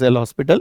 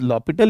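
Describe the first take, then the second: First: The name is said with an s sound. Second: The name is said without an s sound. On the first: The speaker calls it wrong. "It is not pronounced as एल हॉस्पिटल" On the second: The speaker calls it right. "It is लॉपिटल, it is a French word"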